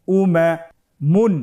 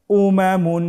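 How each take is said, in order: First: "উমামুন" broken into parts with a long pause; ভেঙে ভেঙে পড়া. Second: "উমামুন" as one unbroken word, higher-pitched; joined-up reading. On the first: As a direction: say "উমামুন" slowly in pieces, pitched up. ("উমামুন" থেমে থেমে, ভেঙে ভেঙে) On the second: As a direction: recite "উমামুন" whole, without pauses. ("উমামুন" না ভেঙে একটানে) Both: Shown as a demonstration. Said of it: "বানান ছাড়া ভেঙে ভেঙে পড়তে হয়".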